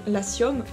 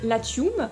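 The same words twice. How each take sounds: First: The word is pronounced with French-style sounds. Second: The word is pronounced with Latin-style sounds. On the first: "donc à la française" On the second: "je le prononce à la latine"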